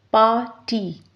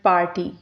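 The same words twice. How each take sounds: First: "Party" in two separate beats, par, ty; split into syllables. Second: Said in the usual way. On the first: Shown as a demonstration. Teacher showing two syllables, "Party" split par-ty. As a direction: break "Party" after "Par" with a clear pause. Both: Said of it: "It has two syllables".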